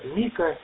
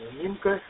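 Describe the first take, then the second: First: The name is said without an n sound. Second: The name is said with an n sound. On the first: The speaker calls it wrong. "многие говорили Мико" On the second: The speaker calls it right. "Его имя Минко"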